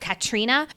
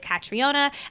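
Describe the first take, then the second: First: The name is pronounced the UK or Irish way. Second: The name is pronounced the traditional American way. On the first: "the more U K, Irish way" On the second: "the American way, traditional American way"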